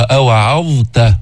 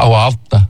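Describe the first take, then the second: First: "أوعظت" slow, ظ held clearly before ت; clear zaa, slow. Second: "أوعظت" said fast with ظ almost gone into ت; wrong rushed reading; rushed near-merge. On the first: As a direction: give the ظ in "أوعظت" time. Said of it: "الظاء بدها وقت لتلفظها". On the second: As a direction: rush "أوعظت" so ظ nearly merges. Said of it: "شو بتطلع". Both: Shown as a demonstration.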